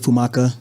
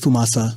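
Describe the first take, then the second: First: The middle consonant is a hard K sound. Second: The middle consonant is an S sound. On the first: The speaker calls it wrong. "so you won't say Fumaka" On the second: The speaker calls it right. "It's Fumasa. ... It's like S A"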